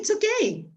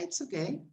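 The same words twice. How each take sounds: First: It is said in a positive, reassuring way. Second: It is said in a hesitant, lukewarm way. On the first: Everything is fine, no problem. "no problem" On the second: It is only so-so, not very good. "más o menos"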